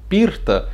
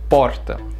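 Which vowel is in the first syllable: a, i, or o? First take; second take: i; o. First: The first vowel sounds like i. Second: The first vowel sounds like o. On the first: The speaker calls it wrong. "se eu mudar o O, eu não falo porta, eu falo pirta" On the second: The speaker calls it right. "o O, o vogal, tem que ser certo"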